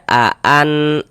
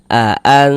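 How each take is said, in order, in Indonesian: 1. Bunyi n diucapkan penuh dan jelas. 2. Bunyi n kabur dan bersengau. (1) "Jangan dibaca aan" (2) "tapi dibaca aan, aan disamarkan"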